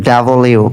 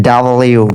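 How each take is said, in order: No difference in how they are said.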